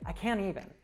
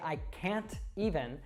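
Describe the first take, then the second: First: The T in can't is dropped. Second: The T in can't is clearly pronounced. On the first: The speaker calls it right. "We'd say" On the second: The speaker calls it wrong. "we wouldn't say"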